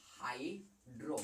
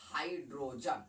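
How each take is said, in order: First: Affectionate short name. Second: Said in the usual way. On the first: Shown as a demonstration. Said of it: "प्यार से कहा जाता है hydro". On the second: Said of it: "hydrogen को प्यार से कहा जाता है हाइड्रो".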